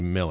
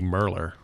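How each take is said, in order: First: The name is said without an added r sound. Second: The name is said with an added r sound. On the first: This is the technically correct pronunciation. "Technically Miller" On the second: This is how the name is said locally in Texas. "Going by Texas pronunciation, it should be Merler. Because you just add Merler. R's to everything"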